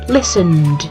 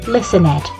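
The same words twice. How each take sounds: First: The -ed adds no extra syllable. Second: The -ed is said as an extra syllable. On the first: The speaker calls it right. "Usually the E is silent" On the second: The speaker calls it wrong.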